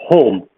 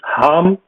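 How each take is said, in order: First: The vowel is a rounded 'oh' sound. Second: The vowel is an open 'ah' sound. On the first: This is the southern dialect form. "something in the south that would be pronounced as home" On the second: This is the northern dialect form. "something in the north uh, that would be pronounced as harm"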